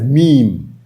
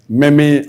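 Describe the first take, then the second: First: It is said as one syllable, 'meem'. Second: It is said differently from the one-syllable 'meem'. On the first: The speaker calls it right. "It's pronounced as meme, M E E M" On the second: The speaker calls it wrong. "It's not pronounced as meme"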